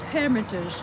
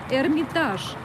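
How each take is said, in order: First: The stress falls on the English strong syllable. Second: The stress falls on the Russian strong syllable. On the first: The speaker calls it wrong. "not Hermitage" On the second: The speaker calls it right. "We have a different syllable, uh, strong syllable"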